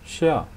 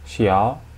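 First: The pitch falls sharply from high. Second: The pitch rises from mid to high.

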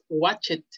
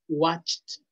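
First: The ending is said as an extra syllable. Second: Only the final consonant of the ending sounds. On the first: The speaker calls it wrong. "No es watch it" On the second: The speaker calls it right. "Nada más suena la última letra"

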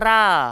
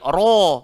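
First: The r is said thin and light. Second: The r is said thick and heavy. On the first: The speaker calls it wrong. "tak boleh baca ra" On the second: The speaker calls it right. "kita kena baca tebal"

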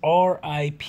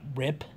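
First: It is spoken as three separate letters. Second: It is spoken as a single word. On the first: The speaker calls it right. "Rest in peace is RIP" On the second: The speaker calls it wrong. "It's not rip"

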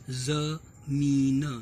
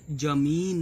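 First: The word begins with a 'z' sound. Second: The word begins with a plain 'j' sound. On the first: The speaker calls it right. "इसे पढ़ेंगे जमीन" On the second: The speaker calls it wrong. "ये जमीन नहीं पढ़ेंगे"

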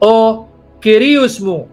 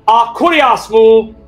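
First: It uses the modern native Greek pronunciation. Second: It uses the Erasmian academic pronunciation of Greek. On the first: The speaker calls it right. "So how does the native Greek speaker say it?" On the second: The speaker calls it wrong. "someone who's taught to pronounce the New Testament Greek a la Erasmian style"

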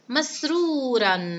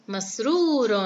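First: The word ends in the sound -an. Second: The word ends in the sound -un. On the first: "تنوين الفتح" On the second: "نلفظ كلمة مسرورا مع تنوين الضم"

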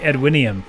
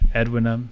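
First: The name ends with an extra 'ee-um' sound. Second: The name ends with a plain 'um' sound. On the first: This is the pronunciation the speaker was tempted to use. "I kind of wanted to say Edwinium" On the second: This is the pronunciation the speaker settles on. "but Edwinum"

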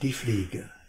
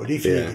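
First: It is said slowly and deliberately. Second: It is droned off in a quick monotone. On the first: The reader is making up the text on the spot. "Also ganz langsam" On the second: The reader is rattling off a text read from the page. "die leierten ja so"

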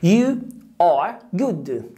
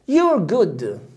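First: You and are are said as separate words. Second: You and are merge into one short syllable.

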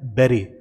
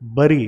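First: The first vowel sounds like the 'e' in 'bed'. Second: The first vowel sounds like the 'u' in 'cup'. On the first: The speaker calls it right. "इसे बोला जाता है बेरी" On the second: The speaker calls it wrong. "इसे बरी नहीं पढ़ा जाता"

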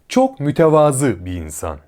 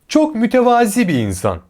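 First: 'Mütevazı' ends in a back 'ı' vowel. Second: 'Mütevazi' ends in a front 'i' vowel. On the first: The speaker calls it right. "Doğru" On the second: The speaker calls it wrong. "Yanlış"

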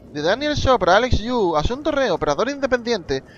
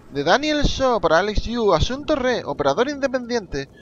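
The two takes are said the same way.

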